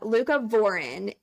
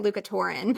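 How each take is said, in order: First: The middle sounds like 'cov', as in Leucovorin. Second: The middle sounds like 'tor', as in Luca Torin. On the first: The speaker calls it right. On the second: The speaker calls it wrong.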